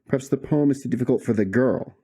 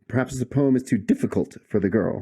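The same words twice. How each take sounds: First: The stress is on the word girl. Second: The stress is on too difficult.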